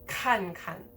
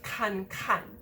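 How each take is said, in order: First: The second syllable is unstressed. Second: The second syllable is stressed. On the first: The speaker calls it right. "the repeated verbs" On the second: The speaker calls it wrong. "instead of"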